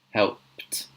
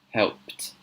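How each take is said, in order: Both takes have the same delivery.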